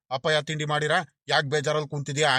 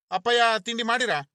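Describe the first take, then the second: First: Mocking echo. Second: Higher, gently coaxing question; coaxing younger brother. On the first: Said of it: "ಹಂಗೆ ಹಿಂಗೆ ಅಂತ ಕೇಳ್ಕೊಂಬಿಟ್ಟು". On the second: Acted. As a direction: brother coaxes his sulking elder, higher and coaxing. Younger brother asks sulking brother.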